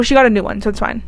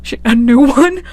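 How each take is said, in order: First: Casual, breezy write-off; offhand dismissal. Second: Laughing, rising echo question; amused disbelief. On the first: Vlogger brushes off a widow's loss, offhand dismissal. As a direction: toss it off as if replacing a phone. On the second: Vlogger catches her own callous wording, amused disbelief. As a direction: echo your own words in giggly disbelief. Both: Real, not acted. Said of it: "I don't know why I said it like that".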